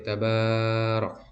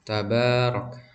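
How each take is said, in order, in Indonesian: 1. Vokal setelah b dibaca panjang. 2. Vokal setelah b dibaca sedang. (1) "tidak terlalu lambat seperti tabarok" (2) "dibacanya dua harokat"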